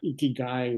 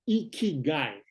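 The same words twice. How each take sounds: First: It is said flatly, without emotion. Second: It is said warmly, with a smile.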